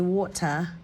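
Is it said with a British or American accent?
British. It is said with a crisp British T.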